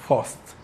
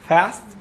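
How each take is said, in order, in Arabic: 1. تُنطق بلكنة بريطانية. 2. تُنطق بلكنة أمريكية. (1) "وهكذا" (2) "وهكذا"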